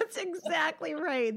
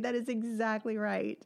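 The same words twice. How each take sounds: First: Higher, slow, laughing through "exactly". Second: Said in the usual way. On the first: Real, not acted. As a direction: agree while still laughing at the story. Laughing agreement after a funny story.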